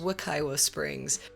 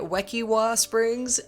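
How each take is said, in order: First: Wekiwa is said with the local pronunciation. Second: Wekiwa is said with the speaker's own pronunciation. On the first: The speaker calls it right. "it is Wekiwa Springs" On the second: The speaker calls it wrong. "I was calling it Wekiwa Springs"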